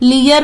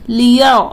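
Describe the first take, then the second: First: The r sound is light and thin. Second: The r sound is heavy and full. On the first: The speaker calls it wrong. "लियर नहीं पढ़ना है" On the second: The speaker calls it right. "रा को पुर पढ़ना है"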